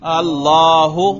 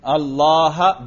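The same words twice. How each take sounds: First: अल्लाहु with a clear final u, drawn out; Arabic رفع: اللهُ; Arabic nominative ending. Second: अल्लाह said slowly with an open final a, as Allaha; Arabic نصب: اللهَ; Arabic accusative ending. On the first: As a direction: say अल्लाहु slowly, ending on a full u sound. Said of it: "रफा पर तलफुज करके दिखाओ". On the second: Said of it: "इसके नसब पर तलफुज करो". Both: Shown as a demonstration.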